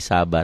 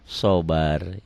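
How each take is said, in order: First: The first vowel sounds like a plain 'a'. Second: The first vowel sounds dark, like 'o'. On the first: The speaker calls it wrong. "kita kan udah terbiasa jadi sabar" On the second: The speaker calls it right. "harusnya sobar"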